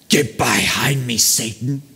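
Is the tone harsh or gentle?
harsh. It is said in a harsh, rebuking tone. It is an angry rebuke. The speaker calls it wrong. "I don't think Jesus said"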